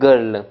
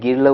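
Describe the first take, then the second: First: The vowel sounds like 'er' before the l. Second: The vowel sounds like 'ih' before the r. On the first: The speaker calls it right. "गर्ल बोलते हैं हम" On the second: The speaker calls it wrong. "कभी गिर्ल बोलते हैं नहीं ना"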